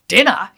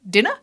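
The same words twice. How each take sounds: First: Said with a scornful, disbelieving tone. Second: Said as a plain question with a rising tune. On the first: The speaker doubts the food deserves to be called a meal. "you call that dinner" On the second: The speaker is asking whether a meal is wanted. "In other words, do you want dinner?"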